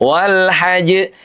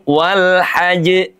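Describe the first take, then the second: The two takes are said the same way.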